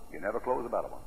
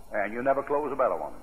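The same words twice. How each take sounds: First: Softer repeat of You never close a better one; soft echo. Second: Said in the usual way. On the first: Real, not acted. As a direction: drop it to a hush.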